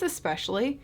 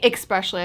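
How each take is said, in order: First: The word begins with a plain es sound. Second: The word begins with an eks sound. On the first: The speaker calls it right. "I think it's especially" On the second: The speaker calls it wrong. "I'm adding an X"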